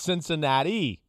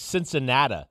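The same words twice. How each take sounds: First: The word ends in a clear 'ee' sound. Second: The final vowel is not a clear 'ee' sound. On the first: The speaker calls it right. "there's a definitive I at the end of the word. It's Cincinnati" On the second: The speaker calls it wrong. "he used to say Cincinnati"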